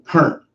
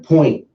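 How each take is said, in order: First: It is said with a Southern dialect vowel. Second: It is said with a standard 'oi' vowel. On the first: "people from the southern part of the United States, that's how they say it" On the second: "spelled and pronounced in English on point"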